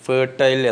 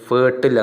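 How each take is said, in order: First: The last syllable rhymes with 'tile'. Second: The last syllable is short, like 'til'. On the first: "Indian British" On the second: "American pronunciation"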